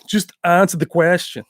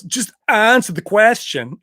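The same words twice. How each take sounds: First: Put-on lighter echo of the accented line; echoing Van Damme. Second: Put-on slow, higher, firm accented demand; Van Damme impression. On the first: Repeating Van Damme's line to chat, lightly accented. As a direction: toss off the quote again. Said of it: "repeats the quote". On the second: Van Damme insisting the reporter answer, mock accent. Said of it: "The way he said it is awesome".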